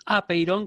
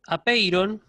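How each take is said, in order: First: Apeiron with the stress pulled back onto the first a; apeiron, stress on the opening a; accent moved back. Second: Apeiron said slowly with the stress on pei; apeiron, slow teaching demo with stress on pei; accent on pei. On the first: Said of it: "con el acento corrido hacia atrás". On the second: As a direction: stress the second syllable of apeiron, drawn out. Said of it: "Ese acento aparece ahí". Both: Shown as a demonstration.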